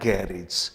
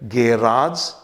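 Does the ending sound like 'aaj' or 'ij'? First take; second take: ij; aaj. First: The ending sounds like 'ij'. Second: The ending sounds like 'aaj'. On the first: "कुछ शब्दों में इज भी हो सकता है" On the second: "कुछ शब्दों में एजी आज भी हो सकता है"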